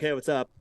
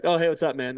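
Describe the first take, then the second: First: Said in the usual way. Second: Mock-enthusiastic "Oh, hey, what's up, man?" a little higher and louder; eager greeting. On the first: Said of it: "You're like". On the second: Imitating an old acquaintance greeting him warmly. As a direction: gush a friendly hello like an old pal. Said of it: "they're like".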